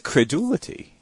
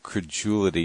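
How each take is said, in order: First: Credulity questioned as kreh-DOO-lih-tee; credulity with "doo" in the middle. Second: The usual credulity, kreh-JOO-lih-tee; credulity said with "joo" in the middle. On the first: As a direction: keep a hard D in credulity, rising at the end. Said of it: "but is it credulity?". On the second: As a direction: soften the D in credulity into a J. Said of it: "we pronounce it credulity usually". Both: Shown as a demonstration.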